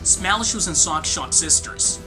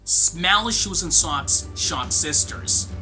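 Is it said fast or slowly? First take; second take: fast; slowly. First: It is said faster. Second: It is said slowly.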